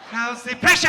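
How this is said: It is said in a put-on German accent.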